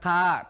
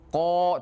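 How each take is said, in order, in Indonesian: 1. Vokalnya tipis dan terang, seperti a. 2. Vokalnya tebal dan gelap, mendekati o. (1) "tidak boleh ka" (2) "huruf tafkhim, huruf tebal, maka pelafalannya juga harus tebal"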